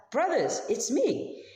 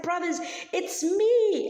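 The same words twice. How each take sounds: First: Brothers, it's me, voiced higher with joy; a bright, lifted reveal to his brothers; excited reveal. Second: Much higher, louder and slow, bursting with joy; very excited. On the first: Joseph reveals himself to his brothers. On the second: Acted. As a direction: Joseph overjoyed, calling out to his brothers. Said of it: "Joseph gets so excited".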